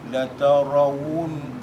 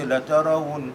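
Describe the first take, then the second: First: The middle consonant is a plain w sound. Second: The middle consonant is a glottal stop. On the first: The speaker calls it right. "kan huruf waw tu kan" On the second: The speaker calls it wrong. "banyak orang baca la tarawun hamzah"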